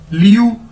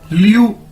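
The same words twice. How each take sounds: No difference in how they are said.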